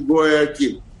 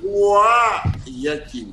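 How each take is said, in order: First: The name is said plainly, in a Russian way. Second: The name is drawn out and loud, like yelling. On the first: This is how a Russian speaker says it. "она сказала так. Очень правильно, красиво по-русски" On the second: This is how the locals say it. "как будто есть... маленький ребенок с большой луженой глоткой орет"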